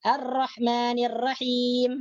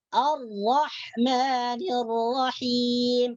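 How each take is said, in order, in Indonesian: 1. Bunyi r dibaca ringan dan tipis. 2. Bunyi r dibaca berat dan tebal. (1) "itu dibaca tipis" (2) "dibaca dengan tebal"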